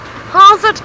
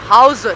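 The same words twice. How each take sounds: First: It is said in an ordinary, higher voice. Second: It is said in a low, deep voice. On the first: The speaker calls it wrong. "you can't say how's it" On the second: The speaker calls it right. "you gotta have a deep voice"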